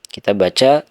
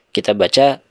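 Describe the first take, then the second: No difference in how they are said.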